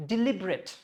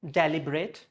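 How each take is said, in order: First: Deliberate as di-LIB-ret; deliberate with short di, strong LIB; stressed LIB in deliberate. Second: Deliberate as DELLY-brate; deliberate said "deli-bret"; wrong DELIBERATE. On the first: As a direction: put the weight on "lib" in deliberate. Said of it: "it is". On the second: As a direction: start deliberate with "DEL" and end in "brate". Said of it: "It's not deliberate". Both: Shown as a demonstration.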